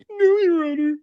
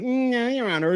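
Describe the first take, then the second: First: Very high fake-weepy whine; mock crocodile tears. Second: Higher-pitched smug mimicry; mock her with a smug, raised voice. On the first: Streamer mimicking woman pleading to the judge, fake tearful. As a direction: badly fake crying to the judge. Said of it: "crocodile tears moment here". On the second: Streamer mimicking woman in court being smug, smug. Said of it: "like, smug".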